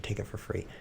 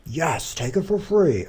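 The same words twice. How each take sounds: First: Said in the usual way. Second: Slow, high, loud mock enthusiasm; mock-excited exclamation. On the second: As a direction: cheer the idea on, drawn out and hammed-up. Answers own musing with mock exclamation.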